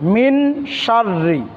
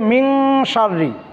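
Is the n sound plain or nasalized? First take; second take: plain; nasalized. First: The n is a plain, clear n sound. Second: The n is hidden and nasalized through the nose. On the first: The speaker calls it wrong. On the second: The speaker calls it right.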